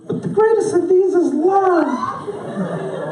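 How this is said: It is said in a high, childlike voice. "It's like that little neighborhood kid... whose voice is never going to change"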